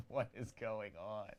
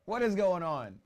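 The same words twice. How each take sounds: First: Said in the usual way. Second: Loud and high, excited; excited shout. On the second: Real, not acted. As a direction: shout it in disbelief. Reacting to goals.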